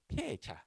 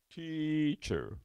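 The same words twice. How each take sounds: First: The final r is dropped, with a posh tone. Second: The final r is curled and pronounced. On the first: "teacher 이렇게 얘기하면 영국 사람이 얘기하는 거야" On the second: "미국 사람 보고 이걸 읽어보라고 하면 teacher 이렇게 씁니다. 이게 말아 들어가"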